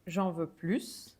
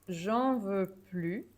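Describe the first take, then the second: First: The final S of plus is pronounced. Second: The final S of plus is silent. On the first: I want more of it. "I would pronounce the S" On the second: I do not want any more of it. "I do not pronounce the S"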